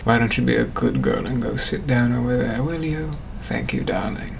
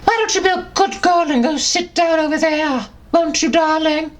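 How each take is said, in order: First: Low, soft posh British purr; low suave British gent; British gentleman. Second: Squeaky high elf voice, much higher; high squeaky Dobby. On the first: British gentleman sweet-talking his darling, low. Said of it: "a British gentleman from the eighteen hundreds". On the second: Dobby voicing the gentleman's line, squeaky high. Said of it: "Dobby was then the British gentleman". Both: Acted.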